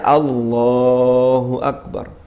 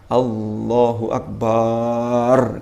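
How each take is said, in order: First: The middle of Allahu is drawn out. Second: A vowel in Akbar is drawn out. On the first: The speaker calls it right. "Kalau yang dipanjangkan itu yang tengahnya" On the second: The speaker calls it wrong. "Gak oleh"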